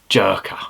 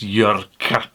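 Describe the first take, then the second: First: It is said with plain English sounds, like 'jerker'. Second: It is said with throaty Swedish sounds, like 'yurka'. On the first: The speaker calls it wrong. "apparently that's not how it's pronounced" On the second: The speaker calls it right. "It's Jörka or something like that"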